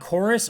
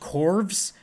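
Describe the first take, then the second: First: It is said like the word chorus. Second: It is said with a v, like corvs. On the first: The speaker calls it right. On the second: The speaker calls it wrong.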